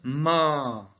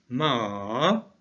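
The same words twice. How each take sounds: First: The vowel is held long at one pitch. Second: The pitch dips down and then rises. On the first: It means mother. "On va prolonger le a" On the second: It means horse. "un ton qui fait comme une vague"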